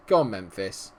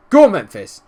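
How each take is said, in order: First: Said in the usual way. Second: "Go on, Memphis" yelled high and loud; excited yell. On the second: Real, not acted. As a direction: scream the striker forward. Urging on his striker.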